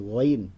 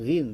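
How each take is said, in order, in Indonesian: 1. Diawali dengan bunyi gh dari tenggorokan. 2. Diawali dengan bunyi seperti r. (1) "tapi goin" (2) "bukan rin"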